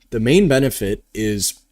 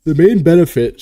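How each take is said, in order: First: Said in the usual way. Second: Louder words stretched by a real yawn; talking through a yawn. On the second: Real, not acted. Host yawning while explaining to stream viewers, yawning. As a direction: let a yawn catch the words mid-phrase. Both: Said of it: "sorry, I just keep yawning".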